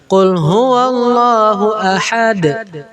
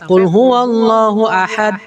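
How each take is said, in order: First: The final d ends with an echoing bounce. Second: The final d ends flat without a bounce. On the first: The speaker calls it right. "Ada pantulannya" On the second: The speaker calls it wrong. "Jangan sampai"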